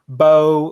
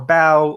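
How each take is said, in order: First: It is said like the archery bow. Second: It is said like bowing down. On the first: It names a weapon or a tool for an instrument. "like the bow for an instrument, or a hunting bow" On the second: It names bending the body in praise. "like bowing towards someone in praise or in supplication"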